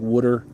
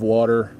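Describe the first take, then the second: First: It is said with a South Jersey accent. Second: It is said with a standard American accent. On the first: "South Jersey folks will say weird, like water" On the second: "instead of water"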